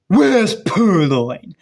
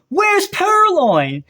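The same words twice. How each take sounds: First: It is said in a gruff, deep Batman voice. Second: It is said in an ordinary speaking voice.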